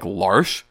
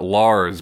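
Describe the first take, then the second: First: The name ends with an sh sound. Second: The name ends with a plain s sound. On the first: "that spelling of that name would be pronounced like Larsh" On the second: "Everybody pronounces it Lars"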